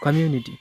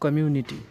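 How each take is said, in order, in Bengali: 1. শেষের ব্যঞ্জনটি নরম 'd'-এর মতো শোনায়। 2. শেষের ব্যঞ্জনটি কঠিন 't'। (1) "ডিকে ডি উচ্চারণ করা হয় ইংলিশে" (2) "আমরা উচ্চারণ করি কমিউনিটি"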